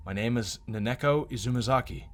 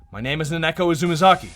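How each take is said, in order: First: Said in the usual way. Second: Louder, rising certainty on Izumizaki; realizing. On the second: Acted. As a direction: say the name as it comes back to you.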